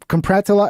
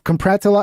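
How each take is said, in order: First: The word is pronounced with syllables jumbled and dropped. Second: The word is pronounced with syllables jumbled and dropped.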